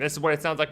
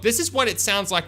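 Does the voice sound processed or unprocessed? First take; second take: processed; unprocessed. First: The voice is processed with filtering effects. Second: The voice is unprocessed, without filtering effects. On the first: The speaker calls it right. "with the effects back on" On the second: The speaker calls it wrong. "without all these filtering effects"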